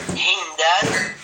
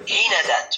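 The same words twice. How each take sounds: First: هندات with a still, unvowelled n: hind-at, slowly; sukun form. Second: هندات with an a after the n: hinadat; fatha form. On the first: Teacher showing the sukun plural, slowly. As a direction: say هندات with no vowel after the n. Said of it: "فضلًا عن التسكين". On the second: Teacher showing the fatha plural to students. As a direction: give هندات its fatha: hi-na-dat. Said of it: "والفتح خطوات". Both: Shown as a demonstration.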